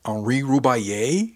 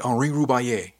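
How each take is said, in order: First: Slow, louder question rising at the end; astonished question. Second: "Henri Roubaillet" settled, falling at the end; confirming. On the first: Crewmate hearing the famous name, slow astonished question. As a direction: draw the name out in disbelief. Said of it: "she asked". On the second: Confirming the friend's name to crewmate, falling tune. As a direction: state "Henri Roubaillet" firmly, no question. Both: A narrator's reading.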